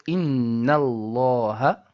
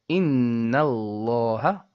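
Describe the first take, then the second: Both takes have the same delivery.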